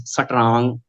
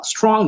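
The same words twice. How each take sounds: First: Punjabi "satrang", vowel slipped into strong; Punjabi accent. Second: Said in the usual way. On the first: Shown as a demonstration. Trainer showing mother-tongue influence, Punjabi-accented "satrang". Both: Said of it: "mother tongue is Punjabi".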